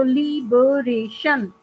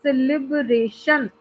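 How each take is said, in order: First: liberation slowly as ली-ब-रे-शन; syllable by syllable. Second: Slow word as लिब-रे-शन, first beats joined; measured syllables. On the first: Teacher breaking the word up for students, syllable by syllable. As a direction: split liberation into four distinct beats. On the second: Teacher giving a four-syllable example, in measured syllables. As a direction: say celebration slowly in joined beats. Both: Shown as a demonstration. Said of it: "four syllables आ रहे हैं".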